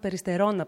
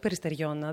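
First: No 'ee' sound comes before the final syllables. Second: An extra 'ee' sound comes before the final syllables. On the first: This is the form the speaker uses herself. "εγώ το λέω" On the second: This is the form others have been using lately. "όχι Περιστεριώνα"

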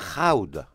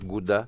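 First: It starts with a breathy H and an ow vowel. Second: It starts with a hard G and an oo vowel. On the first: The speaker calls it right. "είναι Χάουντα" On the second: The speaker calls it wrong. "θα σε κοιτάνε σαν εξωγήινο"

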